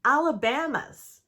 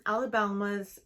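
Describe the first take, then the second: First: Alabama's said cleanly as "Alabamas", no L, a bit louder; corrected pronunciation. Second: Alabama's said with a stray L sound, like "Alabalmas"; mispronounced with extra L. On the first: Vlogger correcting herself, saying Alabama's properly and firmly. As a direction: fix it and say Alabama's with no L. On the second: Vlogger stumbling over Alabama's, wrongly adding an L. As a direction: slip an L into Alabama's before the M. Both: Shown as a demonstration. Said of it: "why am I adding an L?".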